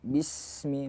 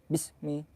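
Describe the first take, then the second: First: The s sound is held long. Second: The s sound is cut short. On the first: The speaker calls it right. "Maka kita yang baca bismi" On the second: The speaker calls it wrong. "bukan bismi"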